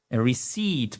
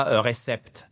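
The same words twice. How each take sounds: First: Receipt said ri-SEET, silent P, stress on the second syllable; correct pronunciation. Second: Receipt said as French ré-cèpt with the P sounded; wrong pronunciation. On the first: Teacher modelling the correct receipt. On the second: Teacher showing the learners' mistake on receipt. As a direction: say receipt like the French word, P included. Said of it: "Et pas ... non". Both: Shown as a demonstration.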